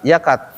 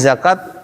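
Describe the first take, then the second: First: The word starts with a y sound. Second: The word starts with a z sound. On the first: The speaker calls it wrong. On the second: The speaker calls it right.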